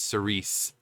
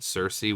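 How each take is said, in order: First: The name is said like 'Sir Reese'. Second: The name is said like 'Cersei'. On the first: The speaker calls it right. "but it's Cerise, like Sir Reese, like Reese's" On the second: The speaker calls it wrong. "I thought it said Cersei, which is you know a mythological figure"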